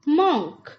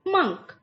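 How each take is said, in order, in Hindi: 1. इस स्वर की आवाज़ 'hot' के 'o' जैसी है। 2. इस स्वर की आवाज़ 'cup' के 'u' जैसी है। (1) "इसको गलत उच्चारण में बोला जाता है" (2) "इसका सही उच्चारण क्या है फ्रेंड्स?"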